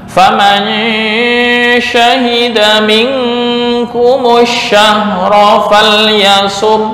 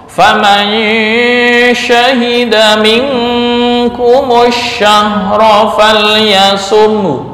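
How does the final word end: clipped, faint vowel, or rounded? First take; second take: rounded; faint vowel. First: The final sound ends with silently rounded lips. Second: The final sound ends with a faint, partial vowel. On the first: "kemudian yang ismam" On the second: "nah raum"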